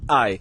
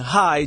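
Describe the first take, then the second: First: The word begins without any H sound. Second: The word begins with a clear H sound. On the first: It sounds more like native Jamaican patois. "just simply say I" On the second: It is the usual standard form. "Instead of saying hi"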